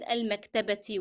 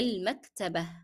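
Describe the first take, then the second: First: The word ends with a ti sound. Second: The word ends with an h sound. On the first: The word is read on its own. "I read al-maktabati with the kasra because I'm just reading the word" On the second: The word ends a sentence with a stop. "I dropped the pronunciation of ta marbuta as ta and I replaced this with ha"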